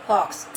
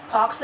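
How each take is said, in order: First: "फॉक्स" with f, lower lip tucked in; correct F sound. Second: "फॉक्स" with aspirated ph, lips meeting; wrong aspirated PH. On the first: Teacher modelling for children, "फॉक्स" with lip-to-teeth f. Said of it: "हमारा होंठ अंदर जा रहा". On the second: Teacher showing what to avoid, "फॉक्स" with ph. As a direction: pop both lips to start "फॉक्स". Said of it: "फॉक्स नहीं बोलना है". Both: Shown as a demonstration.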